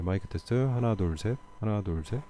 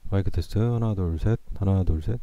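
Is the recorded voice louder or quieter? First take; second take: quieter; louder. First: The voice is recorded at a lower level. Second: The voice is recorded at a higher level.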